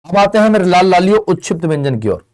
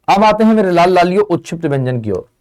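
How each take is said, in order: Both takes have the same delivery.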